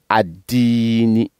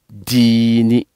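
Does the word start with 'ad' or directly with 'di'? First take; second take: ad; di. First: The word starts with an 'ad' syllable. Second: The word starts directly with 'di'. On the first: The word is said on its own. "quand on découpe, on dit ad-dini" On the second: The word is joined to the previous word. "quand on ne coupe pas, on veut coller, on dit dini"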